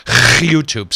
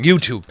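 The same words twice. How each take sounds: First: YouTube with a long throat-scraping rasp before it; exaggerated throaty onset. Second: Said in the usual way. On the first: Host jokingly repeating the site's name, YouTube with a hammed-up guttural onset.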